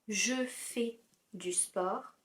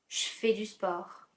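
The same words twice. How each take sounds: First: 'Je' is said in full with its vowel. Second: 'Je' is shortened to a 'sh' sound.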